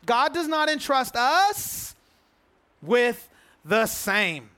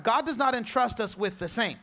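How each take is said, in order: First: "God does not entrust us" spaced out slowly, "us" rising, then a pause before "with the same"; slow emphatic repeat. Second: Said in the usual way. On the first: Shown as a demonstration.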